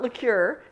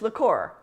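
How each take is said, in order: First: It is pronounced the English way, like liqueur. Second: It is pronounced the Spanish way, like licor. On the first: The speaker calls it wrong. "It's not liqueur" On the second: The speaker calls it right. "it's liqueur, L I C O R"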